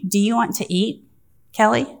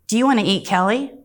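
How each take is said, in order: First: There is a pause before Kelly. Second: There is no pause before Kelly.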